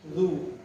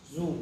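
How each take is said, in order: First: The consonant is soft, without a hiss. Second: The consonant is a hissing buzz. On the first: The speaker calls it right. "za ringan bacanya" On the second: The speaker calls it wrong. "jangan sampai bunyi desis. ... salah"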